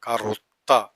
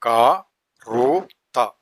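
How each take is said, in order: First: Said in the usual way. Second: ക-റു-ത്ത split into slow beats; syllable by syllable. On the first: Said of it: "blended after syllables". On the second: Shown as a demonstration. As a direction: tap out ക-റു-ത്ത one syllable at a time. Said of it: "syllable-by-syllable demo".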